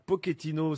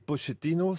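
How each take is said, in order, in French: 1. Le nom se dit à l'italienne. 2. Le nom se dit à l'argentine. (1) "c'est plutôt à l'italienne" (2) "c'est plus argentin"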